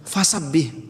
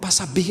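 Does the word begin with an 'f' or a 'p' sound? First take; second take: f; p. First: The word begins with an f sound. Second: The word begins with a p sound. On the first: The speaker calls it right. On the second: The speaker calls it wrong.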